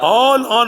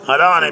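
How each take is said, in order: First: A long opening vowel, then a glottal stop. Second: No glottal stop; the vowel moves onto the l. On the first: "ஒரு மத்து வச்சு இஸ்திபாமுடைய அம்சா வச்சு" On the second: "அம்சாவை போக்குவதை கொண்டும் ... லாமுக்கு தருவது கொண்டும்"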